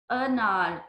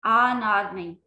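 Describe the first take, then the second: First: अनार said correctly with a short अ at the start. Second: अनार said wrongly as आनार with a long आ at the start. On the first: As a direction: give the right short अ in अनार. (सही उच्चारण, छोटा अ) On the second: (ग़लत उच्चारण, शुरू में लंबा आ) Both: Shown as a demonstration.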